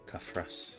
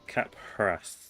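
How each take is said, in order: First: The middle consonant is an f sound. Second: The middle consonant is a p sound. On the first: The speaker calls it right. "No, P H is a fa" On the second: The speaker calls it wrong. "That's how you pronounce it"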